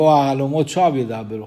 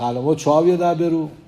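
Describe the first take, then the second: First: It is said as a plain statement. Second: It is said as a question. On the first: Dreams speak nonsense, so it does not matter. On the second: Do dreams speak nonsense? No, it will surely happen.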